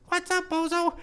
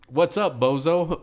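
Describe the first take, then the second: First: It is said in a high-pitched voice. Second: It is said in a normal voice.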